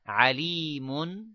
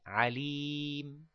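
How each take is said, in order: First: The word ends with a final n sound. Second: The word ends without a final n sound. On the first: The word runs on into the next word. "when you join it, it will be alimun bima" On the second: The reciter pauses at this word. "If it is alimun, you would say alim"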